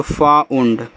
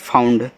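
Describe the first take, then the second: First: "फाउंड" split as फा... उंड; syllable-by-syllable demo. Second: Said in the usual way. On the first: Shown as a demonstration. Teacher sounding out the word for students, "फाउंड" split in two. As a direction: separate the two sounds of "फाउंड", low in pitch. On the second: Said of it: "इसको पढ़ते हैं फाउंड".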